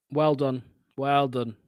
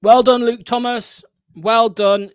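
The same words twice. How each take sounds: First: Said in the usual way. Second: Mock applause, higher and louder; sarcastic praise. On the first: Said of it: "I was being sarcastic". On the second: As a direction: overdo the praise so it stings. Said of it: "by the way, I was being sarcastic".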